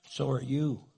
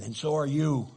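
First: Said in the usual way. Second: Jab it back, up from the apology; retort. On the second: Acted. Husband's secret retort to his wife, sudden louder jab.

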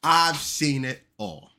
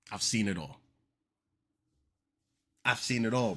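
First: Louder, slow, every word dragged out; slow stunned disbelief. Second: Said in the usual way. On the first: Acted. Host stunned by the quote, slow loud disbelief. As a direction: stretch "I've seen it all" slowly in shock. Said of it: "stretched disbelief". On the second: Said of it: "repeats flatly".

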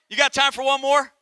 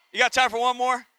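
First: Laughing question. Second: Said in the usual way. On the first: Real, not acted.

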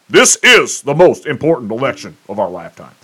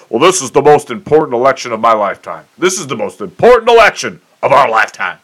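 First: Same line said as a sincere claim, not mocked; mean it this time; sincere emphatic restatement; earnest for real. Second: Lightly hammed-up candidate talking point, a bit faster; mild mock politician pitch; mock campaign cliché. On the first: Shown as a demonstration. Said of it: "for real now". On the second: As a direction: parrot the stump-speech line. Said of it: "you hear it every four years".

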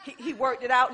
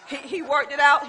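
First: Said in the usual way. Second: Louder, laughing praise of the Lord; louder joyful praise. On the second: Real, not acted. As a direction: lift it up, rejoicing. Repeated praise building.

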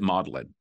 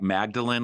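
First: "Magdalen" said as MAWD-lin, with silent g; local Oxford pronunciation. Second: "Magdalene" said as written, with the g sounded; spelling pronunciation. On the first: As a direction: pronounce "Magdalen" like the word maudlin. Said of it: "but you pronounce it Magdalen". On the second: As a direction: say "Magdalene" as MAG-duh-lin, like Mary's surname. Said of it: "it's written like Magdalene". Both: Shown as a demonstration.

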